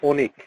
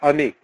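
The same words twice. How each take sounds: First: The first vowel sounds like an 'o'. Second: The first vowel is a pure 'a' sound. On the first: "কিন্তু আমরা উচ্চারণ করি হচ্ছে অনিক, ও দিয়ে উচ্চারণ করি" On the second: "মানে নাম হচ্ছে অনিক"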